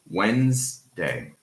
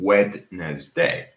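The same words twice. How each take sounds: First: The word is said with two syllables. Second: The word is said with three syllables. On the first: The speaker calls it right. "So Wednesday" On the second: The speaker calls it wrong. "instead of pronouncing Wednesday"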